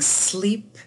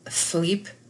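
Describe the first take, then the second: First: The word begins with a clear s sound. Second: The word begins with a th sound. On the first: "instead of saying sleep" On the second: "a distortion could be uh, thweep"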